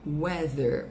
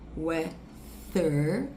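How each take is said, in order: First: The th sound is made with voice. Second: The th sound is made without voice. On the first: The speaker calls it right. "a sua corda vocal vai vibrar" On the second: The speaker calls it wrong. "não é weather"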